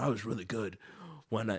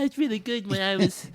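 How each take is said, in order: First: It is said in the speaker's ordinary voice. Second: It is said in a put-on imitated voice.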